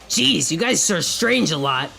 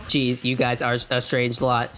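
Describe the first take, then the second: First: It is said in the speaker's normal voice. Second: It is said in a put-on robot voice.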